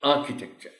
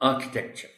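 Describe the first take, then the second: First: The stress is on the first syllable. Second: The same.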